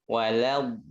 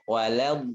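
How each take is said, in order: No difference in how they are said.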